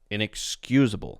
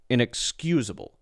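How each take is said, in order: First: It flows smoothly with reduced, weak vowels. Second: It flows smoothly with reduced, weak vowels.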